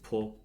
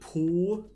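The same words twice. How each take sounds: First: The o vowel is small and short. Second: The o vowel is big and full. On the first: The speaker calls it right. "but with a small o" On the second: The speaker calls it wrong. "Don't pronounce it po"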